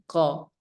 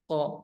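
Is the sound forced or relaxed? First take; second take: relaxed; forced. First: The sound is relaxed and ordinary. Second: The sound is forced hard, like retching. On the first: The speaker calls it right. "Biasa saja. Tidak perlu dipaksakan" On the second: The speaker calls it wrong. "itu salah juga kalau ko, ko, ko, ko. Sampai ya mau muntah gitu"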